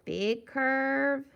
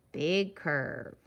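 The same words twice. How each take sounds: First: "Big curve" with "curve" held on a higher pitch; rising tune. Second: "big curve" dropping lower on "curve"; falling tune. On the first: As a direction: stretch "curve" upward, unfinished. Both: Shown as a demonstration. Chanting along with drawn letter strokes.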